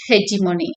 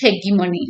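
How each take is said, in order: First: The g is soft, sounding like j. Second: The g is hard, sounding like g. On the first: "American வந்து ஹெஜிமோனி அப்படின்னு சொல்றாங்க" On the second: "British வந்து ஹெகிமோனி அப்படின்னு சொல்றாங்க"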